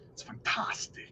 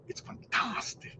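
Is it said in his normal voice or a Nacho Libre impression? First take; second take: normal voice; Nacho Libre. First: It is said in his normal voice. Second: It is said as a Nacho Libre impression.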